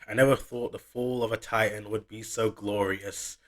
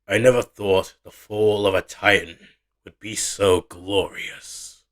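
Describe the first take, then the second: First: It is read in a plain, ordinary voice. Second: It is read in a put-on, performed voice.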